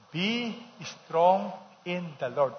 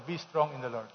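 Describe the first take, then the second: First: Slow, drawn-out group reading; reading together. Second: Said in the usual way. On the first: Shown as a demonstration. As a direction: lead the congregation through each word slowly. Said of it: "Everybody, read this together". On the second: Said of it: "Tell your neighbor".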